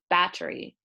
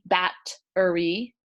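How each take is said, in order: First: It is said quickly with the T barely heard. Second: The middle T is pronounced clearly. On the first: "Others will say it quickly" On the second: "some people will say it more with a T"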